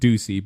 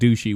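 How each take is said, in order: First: The middle consonant is an s sound. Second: The middle consonant is an sh sound. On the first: The speaker calls it right. "you pronounce it Ducey" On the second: The speaker calls it wrong. "And that's not how you say it"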